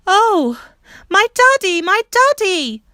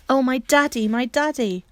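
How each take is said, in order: First: A piercing, much higher, much louder scream of joy; the girl shrieks as she sees her father; a heart-piercing cry of joy, slowing on the last daddy. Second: She says it again, glowing and calmer; tender joyful repetition; joyful exclaim. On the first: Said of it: "That scream went like a knife". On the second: Bobby retells her cry, calmer. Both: Acted.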